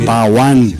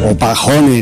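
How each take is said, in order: First: No h sound is heard after Pa. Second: An audible h sound follows Pa.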